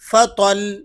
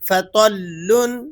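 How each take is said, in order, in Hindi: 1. शब्द का अंत बिना स्वर वाले l की ध्वनि पर होता है। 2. शब्द का अंत -un ध्वनि से होता है।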